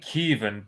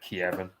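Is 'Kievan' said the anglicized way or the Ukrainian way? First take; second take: Ukrainian; anglicized. First: The word is pronounced the Ukrainian way. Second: The word is pronounced the anglicized way. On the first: The speaker calls it wrong. "that's the Ukrainian way" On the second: The speaker calls it right. "I always say Kievan"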